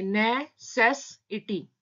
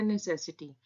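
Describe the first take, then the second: First: Slow, syllable by syllable: ने-से-सि-टी; broken into syllables. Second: Said in the usual way. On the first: Shown as a demonstration. Teacher splits the word for shorthand students, slow and syllabic. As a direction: spell out necessity slowly, each syllable apart. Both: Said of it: "हम इसको break करके पढ़ेंगे".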